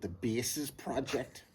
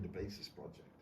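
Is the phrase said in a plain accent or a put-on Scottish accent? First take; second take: Scottish; plain. First: It is said in a put-on Scottish-style accent. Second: It is said in the speaker's ordinary accent.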